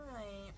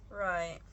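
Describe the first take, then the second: First: The word right said again much softer, nearly dropped away; trailing quiet right; soft echo. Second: Said in the usual way. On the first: Real, not acted. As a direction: murmur it back to yourself. Echoes herself much softer.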